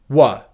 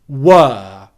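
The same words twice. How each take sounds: First: The word is said weak with a reduced vowel. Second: The word is said strong with a full vowel. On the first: It is used where the word is unstressed. "You will never stress this pronunciation" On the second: It is used where the word is stressed. "the strong pronunciation"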